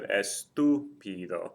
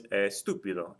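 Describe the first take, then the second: First: Estúpido slowly split as es-tú-pi-do; estúpido in four slow beats, stress on TÚ; syllable by syllable. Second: Said in the usual way. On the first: Shown as a demonstration. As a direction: draw out each syllable of estúpido. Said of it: "break the word down into its syll". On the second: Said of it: "if I break the word down".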